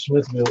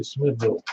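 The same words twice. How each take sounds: First: "Smithville" as spelled, ville sounded fully; outsider's pronunciation. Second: "Smithville" the local way, ending reduced; local pronunciation. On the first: Host showing what locals never say, outsider's pronunciation. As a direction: say "Smithville" with a distinct second syllable. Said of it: "nobody says Smithville in Smithville". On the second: Host showing how townspeople say it, local pronunciation. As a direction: say "Smithville" with a lighter second syllable. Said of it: "They say Smithville". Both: Shown as a demonstration.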